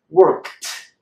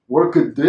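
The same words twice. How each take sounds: First: "worked" as workt, one syllable; D turned into T. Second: "worked" as work-uh-D, in two beats; K and D unconnected. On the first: Teacher models the corrected sound, D said as T. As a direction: end "worked" on a sharp KT. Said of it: "We transform the D into a T". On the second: Teacher shows the difficult way to say it, K and D apart. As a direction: force a voiced D after the K in "worked". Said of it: "don't connect so well in the mouth". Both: Shown as a demonstration.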